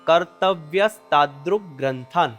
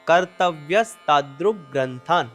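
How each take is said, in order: First: It is said as one joined word. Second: It is said as one joined word.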